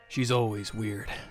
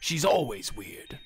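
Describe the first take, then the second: First: The put-on character voice sounds less convincing. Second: The put-on character voice sounds more convincing. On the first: The speaker calls it wrong. "I don't know why I keep messing up Gundam's voice" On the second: The speaker calls it right. "That's that's a little bit better"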